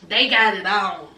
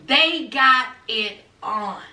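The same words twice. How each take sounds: First: Said in the usual way. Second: "They got it on" slow, word by word; emphatic repeat. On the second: Real, not acted. Reviewer underlining the hookup, "They got it on" slow and deliberate.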